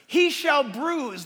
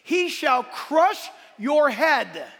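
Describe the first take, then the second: First: Said in the usual way. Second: "crush" hit hard, slow and loud; stress on crush. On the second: Shown as a demonstration. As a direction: punch the word "crush" in a big shout. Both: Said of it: "let me read it according to context".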